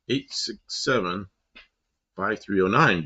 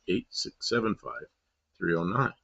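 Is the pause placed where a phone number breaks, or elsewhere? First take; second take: phone break; elsewhere. First: The pause falls at the phone-number break. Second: The pause falls at another point. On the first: This is how the number is normally dialed. The speaker calls it right. "it should have been" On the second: This is how the song phrases it to sound right. The speaker calls it wrong. "they paused in the wrong place"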